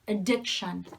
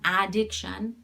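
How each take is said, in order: First: The first vowel is a reduced schwa sound. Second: The first vowel is a full ah sound. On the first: The speaker calls it right. "it's ad- addiction" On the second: The speaker calls it wrong. "It's not addiction"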